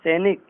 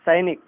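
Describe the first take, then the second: First: सैनिक said as "senik"; wrong "e" vowel. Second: सैनिक said as "sainik"; correct "ai" vowel. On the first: Teacher showing the error, सैनिक with e for ai. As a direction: use plain "e" in सैनिक. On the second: Teacher correcting it, सैनिक with ai. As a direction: open सैनिक with an "ai" glide. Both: Shown as a demonstration. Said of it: "इस प्रकार से ए".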